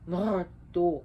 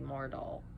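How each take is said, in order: First: The name ends with a K sound. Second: The name ends with an L sound. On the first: This follows the Icelandic pronunciation. "Icelandic pronunciation ... because the double L is a K sound" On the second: This is how some people simply say it. "some people would just say Mardal"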